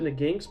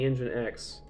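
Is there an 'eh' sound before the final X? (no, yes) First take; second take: no; yes. First: It ends like 'jinx', with no 'eh' before X. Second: It sounds like 'engine-ex', with 'eh' before X. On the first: This is how the speaker personally says it. "I pronounce it Nginx" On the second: This is the officially intended pronunciation. "apparently it's supposed to be Nginx"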